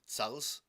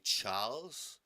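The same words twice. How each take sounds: First: The vowel is short and clipped. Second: The vowel is drawn out and long. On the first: It is written without the extra letter. "if you don't want it to be Charles" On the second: It is written with an added Aleph. "if you want to prolong a sound"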